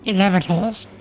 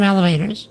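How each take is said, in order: First: The word has an unusual, fancy-sounding pronunciation. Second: The word has its ordinary everyday pronunciation. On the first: The speaker calls it right. "if you want to sound fancy" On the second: The speaker calls it wrong. "don't call them elevators"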